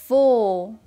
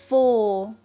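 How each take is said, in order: The two takes are said the same way.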